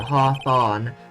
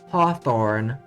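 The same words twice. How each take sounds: First: Both vowels in the name sound the same. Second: The two vowels in the name sound different. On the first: "for me I pronounce the haw and the fawn the same" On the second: "in American accent it would be"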